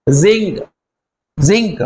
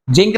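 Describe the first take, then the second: First: जिंक begun with a buzzing Z, "zink"; zinc with Z. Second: जिंक said with a hard J, "jink"; wrong "jink" reading of जिंक, no Z buzz; mispronounced zinc. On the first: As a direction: model जिंक as "zink", separately and clearly. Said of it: "pronounce जिंक नहीं करना है". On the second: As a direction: start जिंक with J as in "jeep". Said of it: "जिंक नहीं पढ़ोगे". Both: Shown as a demonstration.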